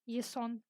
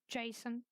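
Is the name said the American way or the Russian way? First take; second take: Russian; American. First: The name is said the Russian way. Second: The name is said the American way. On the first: It names the Greek hero. "in Russian it's like Yason" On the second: It is an ordinary American first name. "like you say in America"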